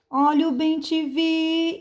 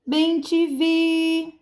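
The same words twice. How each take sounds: First: High hawker's cry, VI sustained; street vendor's call. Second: Bem te vi slow and high, VI held long; street vendor's call. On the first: Teacher demonstrating the selling trick on bem-te-vi, vendor's call. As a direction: sell bem te vi with a long, level ending. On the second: Teacher selling the bird's name to pupils, vendor's call. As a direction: call out each syllable like a hawker. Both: Shown as a demonstration. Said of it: "é você vender a palavra".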